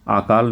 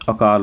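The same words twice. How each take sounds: First: आकाल with a long aa at the start; the wrong form, opening on a long aa; wrong long first vowel. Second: अकाल with a short a at the start; the right form, opening on a short a; correct short first vowel. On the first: Teacher marks the mistake, long aa at the start. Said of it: "आकाल नहीं होता". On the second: Teacher gives the right form, short a at the start. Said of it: "अकाल होता है". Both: Shown as a demonstration.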